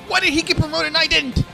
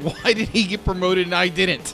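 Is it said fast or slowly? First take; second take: fast; slowly. First: It is said quickly. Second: It is said more slowly.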